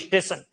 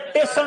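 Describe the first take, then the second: First: An extra 'i' vowel is added before 'st'. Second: The word begins with 't', dropping the 's'. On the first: "ई बोलेंगे।" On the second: "ई और स नहीं बोलेगा, सीधा बोलेगा टेशन"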